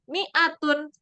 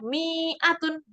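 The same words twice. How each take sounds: First: The vowel after the m is kept short. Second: The vowel after the m is drawn out long. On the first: The speaker calls it right. "Yang benar adalah mi'atun" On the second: The speaker calls it wrong. "tidak dibaca mi'atun"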